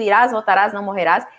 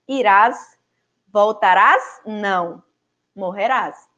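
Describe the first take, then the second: First: The pause comes before 'não', not after it. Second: The pause comes after 'não', not before it. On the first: He will return and will not die. "aonde ele tinha escrito, né, isso" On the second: He will not return; he will die. "Ele tirou a vírgula aqui, que está após voltarás, e colocou após o não"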